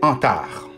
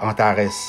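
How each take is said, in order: First: The name ends with an 'ar' sound. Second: The name ends with an 'ares' sound. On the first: The speaker calls it right. "ça se prononce Antar" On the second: The speaker calls it wrong. "ça ne se prononce pas Antares"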